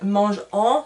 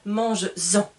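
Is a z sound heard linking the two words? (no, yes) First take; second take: no; yes. First: The two words are said with no linking sound. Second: A z sound links the two words together. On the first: The speaker calls it wrong. "Je ne peux pas dire mange en, c'est compliqué" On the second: The speaker calls it right. "je vais rajouter le S et je vais pouvoir dire mange-en ... Je fais la liaison"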